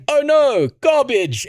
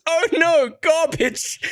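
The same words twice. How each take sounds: First: High, loud jokey "oh no, garbage"; mock dismay. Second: Put-on high, childlike "oh no, garbage"; imitating his daughter. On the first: Dad joking to his daughter when an ad pops up, mock dismay. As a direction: act playfully disgusted at the ad. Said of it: "I went". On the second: Dad imitating his daughter pointing at an ad, childlike. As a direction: play the little girl dismissing an ad. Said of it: "she just points at it and goes".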